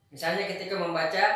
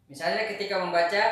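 No difference in how they are said.

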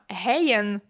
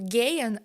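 First: The word starts with a soft h-like sound. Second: The word starts with a hard g sound. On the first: The speaker calls it wrong. "так говорити не можна" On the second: The speaker calls it right. "Звук «г» у німецькій мові присутній"

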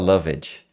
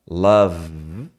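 First: The ending is said as an extra syllable. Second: The ending is joined without an extra syllable. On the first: The speaker calls it wrong. "você não fala loved" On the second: The speaker calls it right. "Você fala love"

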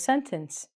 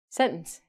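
First: Every sound of the word is pronounced. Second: Some sounds of the word are dropped. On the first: This is how the word is thought of. "My brain goes" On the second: This is how North Americans actually say it. "But Americans and Canadians say"

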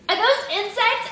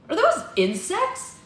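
First: It is said in Red's character voice. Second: It is said in a voice other than Red's.

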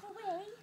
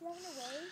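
First: It is said at a louder volume. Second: It is said at a quieter volume.

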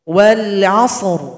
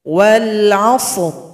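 No difference in how they are said.

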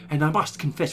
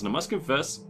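First: It is spoken in a put-on character voice. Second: It is spoken in the speaker's ordinary voice.

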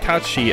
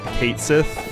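First: The name begins like 'cat' and ends like 'shee'. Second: The name begins like 'Kate' and ends like 'sith'. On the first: The speaker calls it right. "It's pronounced Katshi, actually" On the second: The speaker calls it wrong. "most people called Kate Sith"

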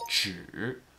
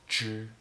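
First: The word has a low dipping tone. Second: The word has a high level tone. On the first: It means only. "when we pronounce it 只 with a third tone" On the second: It is a measure word for animals. "it is pronounced using a first tone"

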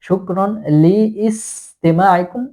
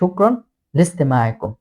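First: Li and istima are said separately with the vowel. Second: The lam joins directly to the s sound. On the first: The speaker calls it wrong. "শুক্রন লি ইস্তেমা আইকুম এরকম হবে না" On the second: The speaker calls it right. "লামটা সিনের সাথে মিলে যাবে"

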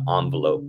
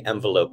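First: The first syllable sounds like 'on'. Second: The first syllable sounds like 'en'. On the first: "not envelope" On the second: "I like to say envelope, because it envelops"

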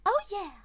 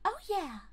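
First: The voice sounds like Mickey Mouse. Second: The voice sounds like gentle, high Peach.

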